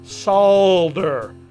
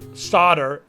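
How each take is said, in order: First: The word is said with an L sound. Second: The word is said without an L sound. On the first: The speaker calls it right. "it's solder" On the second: The speaker calls it wrong. "Where is the L? It's not solder"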